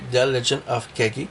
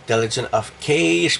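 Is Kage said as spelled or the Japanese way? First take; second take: Japanese way; as spelled. First: Kage is said with its original Japanese sounds. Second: Kage is read as its English spelling suggests. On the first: This is the title's real pronunciation. The speaker calls it right. "mais en réalité, le vrai titre" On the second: This is how many people say it. The speaker calls it wrong. "beaucoup de personnes qui prononcent The Legend of Kage parce que c'est marqué K"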